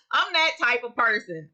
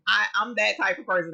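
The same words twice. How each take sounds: First: Said through a laugh. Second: Said in the usual way. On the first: Real, not acted. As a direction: laugh it off as you admit it. Laughs while admitting worry.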